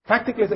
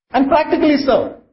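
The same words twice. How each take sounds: First: Soft echo. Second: Practically said high and punched; stressed practically. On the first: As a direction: let the repeat drop quietly. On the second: Preacher stresses the point to the congregation, high on practically. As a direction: lift and hit practically. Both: Shown as a demonstration.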